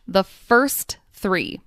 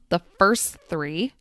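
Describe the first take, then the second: First: The final T of first is clearly pronounced. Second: The final T of first is dropped. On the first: The speaker calls it wrong. "I enunciated each word, meaning I carefully pronounced each sound" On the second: The speaker calls it right. "The final T sound at the end of first disappears"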